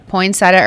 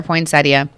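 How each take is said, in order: First: First option "poinsettia" as three syllables, poyn-SET-uh; poinsettia without the i. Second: Second option "poinsettia" as four syllables, poyn-SET-ee-uh; poinsettia with -ia ending. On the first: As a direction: end "poinsettia" on a simple -uh, no ee. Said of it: "we need to do a". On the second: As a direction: add the ee before the final -uh in "poinsettia". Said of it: "how many people say that". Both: Shown as a demonstration.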